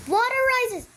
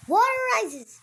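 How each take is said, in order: First: High, loud announcer call. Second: Announcer voice. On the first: Announcing rising water. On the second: Repeats announcement. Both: Pretend. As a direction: call it out like a game host.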